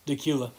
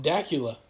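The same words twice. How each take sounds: First: "Dacula" stressed on the middle syllable, duh-KYOO-la; correct local pronunciation. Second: "Dacula" stressed on the first syllable, DACK-yoo-la; mispronounced place name. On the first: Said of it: "It's actually pronounced Dacula". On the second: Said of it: "I never pronounce it right". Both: Shown as a demonstration.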